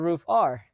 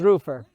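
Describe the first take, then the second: First: The name ends with the letter name 'R'. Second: The name ends with a short 'er' sound. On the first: This is another pronunciation people use. "Because I've heard roof R" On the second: This is the accepted pronunciation of the name. "It is roofer"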